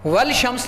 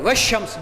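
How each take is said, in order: First: The L of the article is clearly pronounced. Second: The L merges into a doubled sh sound. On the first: The speaker calls it wrong. "वल शम्स नहीं पढ़ रहे" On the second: The speaker calls it right. "Direct शीन के ऊपर तशदीद है, अलिफ लाम नहीं पढ़ा जा रहा"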